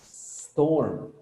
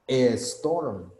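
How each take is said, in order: First: The word starts directly with the s sound. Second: An extra vowel sound comes before the s. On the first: The speaker calls it right. "I'm not pronouncing any E" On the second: The speaker calls it wrong. "le ponemos una E"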